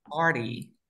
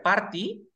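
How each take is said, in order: First: PARTY with the T dropped, like "pari"; T muda. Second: PARTY with a clearly articulated T; T pronunciada. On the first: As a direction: drop the T after the R in PARTY. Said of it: "la T no suena". (PARTY sin pronunciar la T) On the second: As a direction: say the T in PARTY as a hard t. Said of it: "va a ser party". (PARTY con la T marcada) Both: Shown as a demonstration.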